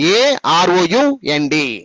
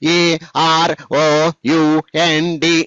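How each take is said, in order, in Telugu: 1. అక్షరాలు చిన్న చిన్న సమూహాలుగా కలిపి చెబుతారు. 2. ప్రతి అక్షరాన్ని విడివిడిగా, మధ్యలో విరామంతో చెబుతారు. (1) "ఎక్కడెక్కడైతే మనము అడ్డగీత పెట్టుకున్నామో అక్కడ మీరు అలాగే చెప్పాలి" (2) "ఇలా కాదండి, తప్పది"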